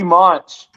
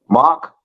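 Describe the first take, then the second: First: The name is said with an n, like 'Monch'. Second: The name is said without an n, like 'Mock'. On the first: The speaker calls it wrong. "always said said Monch. So I fucked up" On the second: The speaker calls it right. "It's Mock"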